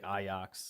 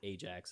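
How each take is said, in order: First: The middle consonant sounds like a Y. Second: The middle consonant sounds like a J. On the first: This is how the locals say the name. "They say it like Ajax" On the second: This is how the speaker always said the name. "Ajax is how I always had said it"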